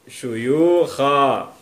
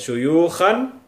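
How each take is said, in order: First: The word ends on a lengthened a vowel. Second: The word ends with an n sound. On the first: The speaker calls it right. "yang betul syuyukha. Bacanya sedikit dipanjangkan dua ketukan" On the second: The speaker calls it wrong.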